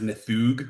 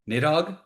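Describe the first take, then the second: First: The name is said like 'Nithug'. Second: The name is said as it is spelled. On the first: The speaker calls it right. "It's actually pronounced Nithug" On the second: The speaker calls it wrong. "It always looks like it should be Nidhogg"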